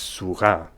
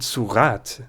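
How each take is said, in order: First: The final T sound is silent. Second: The final T sound is pronounced. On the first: "pronounce this as a silent T" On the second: "the final E lets us have our T"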